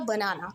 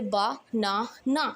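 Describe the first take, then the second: First: Said in the usual way. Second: "बा, ना, ना" as three separate chunks; broken into syllables. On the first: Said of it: "जब हम तोड़ते हैं उनको". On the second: Shown as a demonstration. Teacher splitting banana for students, "बा, ना, ना" syllable by syllable. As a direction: pause after each syllable of "बा, ना, ना". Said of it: "उसको मैंने तोड़ दिया".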